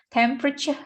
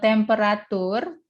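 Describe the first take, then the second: First: The ending has a 'ch' sound before the vowel. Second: The ending has a plain 't' sound before the vowel. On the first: The speaker calls it right. "Bacanya agak temperature gitu ya" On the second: The speaker calls it wrong. "So it is not temperatur, bukan begitu"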